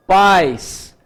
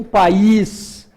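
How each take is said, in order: First: Pais as one drawn-out syllable, stress on the A; diphthong in pais. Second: País in two syllables, stress on the I; país split pa-ÍS; hiatus in país. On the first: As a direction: say pais with a strong A gliding into I. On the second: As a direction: say país with the I strong and apart from the A. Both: Shown as a demonstration. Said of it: "há uma diferença na pronúncia".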